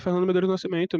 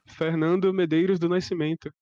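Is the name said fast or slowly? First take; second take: fast; slowly. First: The name is said fast. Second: The name is said slowly.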